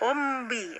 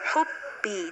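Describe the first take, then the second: First: A nasal hum comes before the b. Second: The b is clean, with no nasal hum. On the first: The speaker calls it wrong. "jangan sampai humbi" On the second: The speaker calls it right. "Hanya di bibir ya, mengatupkan kedua bibir"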